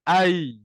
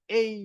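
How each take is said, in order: First: The vowel is an open 'ai' sound. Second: The vowel is a closer 'ei' sound. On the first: The speaker calls it right. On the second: The speaker calls it wrong.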